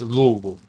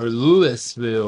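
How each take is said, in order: First: It is said in a southern US accent. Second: It is said in a northern US accent. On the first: "us in the south, it's Louisville" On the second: "People up north will say Louisville"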